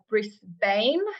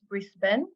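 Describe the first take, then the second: First: It is pronounced the way a newcomer says it. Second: It is pronounced the way locals say it. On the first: The speaker calls it wrong. "which is not how you pronounce it" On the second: The speaker calls it right. "I very quickly learned it's Brisbane"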